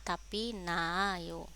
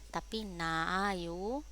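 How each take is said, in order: No difference in how they are said.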